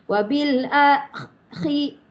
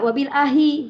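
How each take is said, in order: First: The last word has a rasping throat kh sound. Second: The last word has a plain breathy h sound. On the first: The speaker calls it right. "bunyi macam bunyi kahak" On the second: The speaker calls it wrong. "jangan wabil ahi hi, kalau baca hi dia jadi raha"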